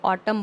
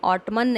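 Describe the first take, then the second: First: The word ends without an n sound. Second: The final n sound is pronounced. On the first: The speaker calls it right. "इसको ऑटम बोलना है" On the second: The speaker calls it wrong. "ऑटमन नहीं बोलना है"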